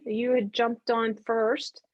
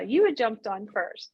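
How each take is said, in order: First: Said in the usual way. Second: YOU picked out with a pitch jump; stress on YOU. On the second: Real, not acted. Leader corrects herself on who joined first, stress on YOU.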